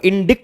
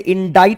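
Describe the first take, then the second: First: A k sound is heard before the t. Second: No k sound; the vowel is 'eye'. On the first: The speaker calls it wrong. "इसको इंडिक्ट नहीं पढ़ेंगे" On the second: The speaker calls it right. "इसे इंडाइट पढ़ा जाता है"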